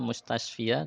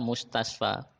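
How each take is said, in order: First: The word ends with an added 'ia' sound. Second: The word ends with a plain 'a' sound. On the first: The speaker calls it wrong. "mustasfa tidak bisa dibaca mustasfia" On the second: The speaker calls it right. "Makanya dia tetap dibaca mustasfa"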